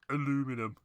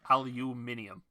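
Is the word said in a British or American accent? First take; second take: American; British. First: It is said the American way, aluminum. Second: It is said the British way, aluminium.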